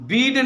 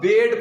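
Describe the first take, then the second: First: The vowel is a long 'ee' sound. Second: The vowel is a short 'e' sound. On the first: The speaker calls it wrong. "बीड नहीं पढ़ना है" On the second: The speaker calls it right. "इसको अब बेड पढ़ना है"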